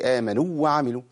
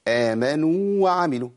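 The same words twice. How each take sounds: First: The long vowel is cut short into the next. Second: The long vowel is held its full length. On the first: The speaker calls it wrong. "ما قولش آمنوا وعملوا" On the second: The speaker calls it right. "فأقول آمنوا وعملوا"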